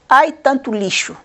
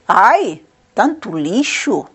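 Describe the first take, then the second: First: It is read flatly, without exclamation. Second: It is read as an exclamation, pausing after ai.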